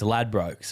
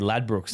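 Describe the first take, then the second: First: The word is pronounced the Australian way. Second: The word is pronounced the English way. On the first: "it's Ladbrokes over here in Australia" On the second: "in England they say Ladbrokes"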